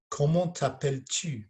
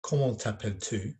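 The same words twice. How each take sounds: First: Tu with a tight, fronted French u. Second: French read with an English accent, tu like "too". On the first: Teacher contrasting it with English accent, proper French tu. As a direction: say the tu of "Comment t'appelles-tu?" through pursed lips, higher. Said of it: "can you hear the difference". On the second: Teacher showing pupils the difference, English-accented French. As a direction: make "Comment t'appelles-tu?" sound English-accented. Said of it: "more of an English accent". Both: Shown as a demonstration.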